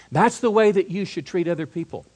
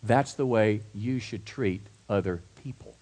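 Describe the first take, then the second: First: "way" stressed, higher and louder; preacher's emphatic restatement with "way" hit hard; emphatic repeat. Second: Said in the usual way. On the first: Shown as a demonstration. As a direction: drive home "way" with emphasis. Repeated line, emphatic second take.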